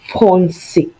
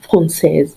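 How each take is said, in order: First: The word ends on a vowel with no s. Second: The word ends with an audible s sound. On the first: The speaker calls it right. "We say on français" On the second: The speaker calls it wrong. "We don't say française"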